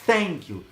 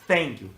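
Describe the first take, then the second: First: Thank begins with a th sound, tongue between teeth. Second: Thank begins with a th sound, tongue between teeth.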